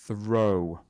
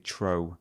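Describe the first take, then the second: First: The word begins with a soft th sound. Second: The word begins with a plain t sound. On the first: The speaker calls it right. "So you have to focus on the th" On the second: The speaker calls it wrong. "We wouldn't normally say tro"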